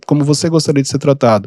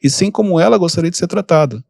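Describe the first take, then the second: First: Você said with weight, set against ela; contrasting emphasis on "você"; stress on você. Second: "ela" made the most prominent word, falling after it; stress on ela. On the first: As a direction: lean on "você" in "como você gostaria". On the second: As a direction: hit "ela" to contrast it with "você". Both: Shown as a demonstration. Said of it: "não é somente você tratar as pessoas".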